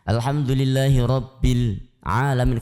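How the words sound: The words are split apart with a break. "dipisah katanya"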